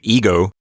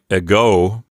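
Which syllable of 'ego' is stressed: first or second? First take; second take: first; second. First: The stress is on the first syllable. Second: The stress is on the second syllable. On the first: "it's not like the English word ego" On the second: "has its accent on the second syllable, so it sounds like ego"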